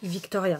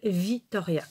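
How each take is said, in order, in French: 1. Le nom a un son k avant le t. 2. Le nom n'a pas de son k avant le t. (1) "Le C, ce serait en français. D'accord? Ça ferait Victoria" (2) "elle s'appelle Victoria"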